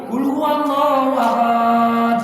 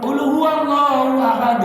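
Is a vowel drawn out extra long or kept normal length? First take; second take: drawn out; normal length. First: A vowel is drawn out extra long. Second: The vowels keep their normal length. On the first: The speaker calls it wrong. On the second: The speaker calls it right.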